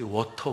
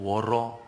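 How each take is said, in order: First: The middle consonant is a clear t sound. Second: The middle consonant is a soft flapped r. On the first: "워터 그러지 않고" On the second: "혀만 굴리면"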